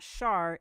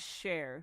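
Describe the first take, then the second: First: The name has the vowel of 'car'. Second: The name has the vowel of 'care'. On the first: The speaker calls it wrong. "it's not Shar" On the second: The speaker calls it right. "it is [name]"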